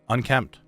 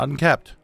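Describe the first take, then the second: First: It is said with an M sound. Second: It is said without an M sound. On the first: The speaker calls it right. "There's an M in there" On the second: The speaker calls it wrong. "Not unkept"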